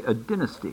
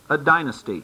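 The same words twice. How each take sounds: First: Dynasty is said with a British pronunciation. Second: Dynasty is said with an American pronunciation.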